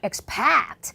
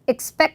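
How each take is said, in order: First: The word is said with heavy, drawn-out emphasis. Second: The word is said short and light. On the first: The speaker calls it wrong. "너무 여러분들이 동사를 강조한다면" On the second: The speaker calls it right. "그냥 짧게"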